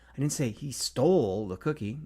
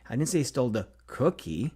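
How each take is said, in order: First: The stress is on the word stole. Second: The stress is on the word cookie.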